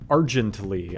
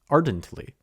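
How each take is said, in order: First: The middle consonant is a soft j sound. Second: The middle consonant is a plain d sound. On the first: The speaker calls it wrong. "I mispronounce a word" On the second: The speaker calls it right. "It's ardently"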